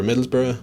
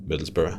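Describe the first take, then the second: First: Said in the usual way. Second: Middlesbrough with a soft, light r on the end. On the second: Shown as a demonstration. Streamer demonstrating the soft local Middlesbrough to chat. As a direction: ease gently through Middlesbrough. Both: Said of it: "you do a soft".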